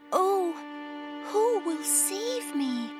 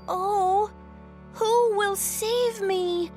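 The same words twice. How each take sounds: First: It is said in a tiny, quiet voice. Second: It is said a little louder.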